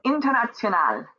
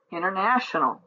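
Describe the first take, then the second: First: International, said the German way: in-ter-nah-tsio-NAHL, stress on the last syllable; German pronunciation. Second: International, said the English way, stress on "na", falling at the end; English pronunciation. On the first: Teacher showing students the German word, German pronunciation. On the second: Teacher giving students the English equivalent, English pronunciation. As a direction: say international as an English speaker would. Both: Shown as a demonstration. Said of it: "words for Übung eins that originate from English".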